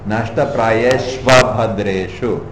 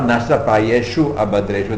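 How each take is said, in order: First: The word ends in 'shva', joined to the next word. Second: The word ends in 'shu', with a separate 'a' after. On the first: The words are joined together. The speaker calls it right. "When it's joined, sandhi is there. The U becomes the V" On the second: The words are kept apart. The speaker calls it wrong. "Not nashta prayeshu abhadreshu. Then you get 9 syllables"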